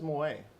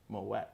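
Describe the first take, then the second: First: The final T is left silent. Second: The final T is clearly pronounced. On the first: The speaker calls it wrong. "I don't know why everyone says Moet" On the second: The speaker calls it right. "Hard T"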